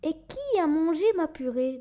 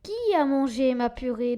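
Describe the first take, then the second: First: It is said in a medium mama bear voice. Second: It is said in a deep papa bear voice.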